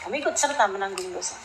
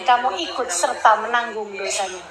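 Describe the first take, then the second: First: "Kamu ikut serta menanggung dosa" repeated much softer and quicker; quiet echo. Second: Said in the usual way. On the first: Real, not acted. Preacher warning parents to their audience, repeated softly. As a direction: drop the voice low and murmur the warning again.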